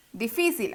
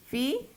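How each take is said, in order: First: Said in the usual way. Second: Di, fi, cil with long pauses between; syllable by syllable. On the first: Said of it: "Vamos a desglosarla". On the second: Shown as a demonstration. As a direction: break Difícil into three separate, softer syllables. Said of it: "Desglosémoslo".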